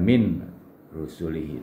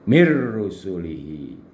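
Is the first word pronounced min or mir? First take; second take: min; mir. First: The n is kept before the r. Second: The n merges into the following r. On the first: The speaker calls it wrong. "bukan min rusulihi" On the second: The speaker calls it right. "tapi mir rusulihi"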